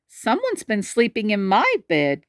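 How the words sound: It is said with a breathy gasp.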